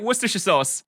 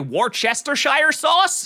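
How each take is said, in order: First: Worcestershire is not pronounced the way it looks spelled. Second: Worcestershire is pronounced the way it looks spelled. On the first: The speaker calls it right. "you said it right" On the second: The speaker calls it wrong. "all Americans say Worcestershire sauce"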